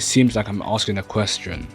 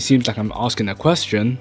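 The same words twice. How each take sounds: First: The pitch falls at the end. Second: The pitch rises at the end. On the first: The speaker sounds sure about the statement. The speaker calls it right. "when I go down, it's actually better" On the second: The speaker sounds unsure, as if asking. The speaker calls it wrong. "I increase the pitch at the end of the sentence, it sounds like I'm asking a question"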